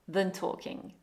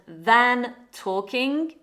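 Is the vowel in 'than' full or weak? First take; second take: weak; full. First: The word than is weakened to schwa. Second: The word than has a full vowel.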